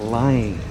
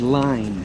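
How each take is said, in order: First: The final N sound is left off. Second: The final N sound is clearly pronounced. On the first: "They don't pronounce the N" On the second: "The girls don't say line"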